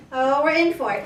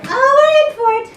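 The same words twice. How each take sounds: First: Said in the usual way. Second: High and loud, bracing for chaos; excited exclaim. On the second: Real, not acted. Trainer watching dog grab the leash, loud excited exclaim. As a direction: yelp it out, thrilled and alarmed.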